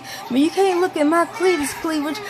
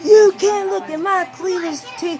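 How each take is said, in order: First: Mock yell, corrected. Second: High, loud slip: "Cletus T" blurted instead of "cleavage"; retold scream. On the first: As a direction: correct yourself and land on "cleavage". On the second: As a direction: yell it as the garbled wrong word first. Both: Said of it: "sitting here screaming".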